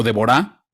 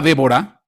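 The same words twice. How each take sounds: First: Deborah said with the stress on the last syllable, de-bo-RAH; stress on final A. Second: Said in the usual way. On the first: Shown as a demonstration. Preacher shows the other way to say Deborah, stress on the final A. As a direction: put the weight on the final A of Deborah, not the first syllable. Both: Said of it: "con el acento en la A al final".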